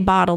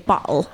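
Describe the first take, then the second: First: The middle t sounds like a d. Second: The middle t is not said like a d. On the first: This is how people from Washington say it. "we say bottle" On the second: This is how people from the East Coast say it. "they say bottle"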